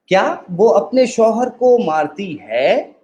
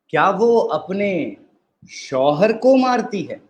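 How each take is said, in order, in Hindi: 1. ज़ोर "है" शब्द पर पड़ता है। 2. ज़ोर "शौहर" शब्द पर पड़ता है। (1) "अब हम आखिरी लफ्ज पे एम्फसाइज करेंगे।" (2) "अब हम चौथे पे एम्फसाइज़ करेंगे।"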